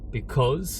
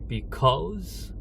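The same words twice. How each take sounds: First: The word is said flat, without clear stress. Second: The word is said with a clear stress. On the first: The speaker calls it wrong. "because가 아니라" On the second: The speaker calls it right. "할 때 강세를 넣죠"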